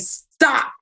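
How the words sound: The word is said in a firm, serious tone. The speaker really wants the other person to stop. "when I say stop like that, do I mean it?"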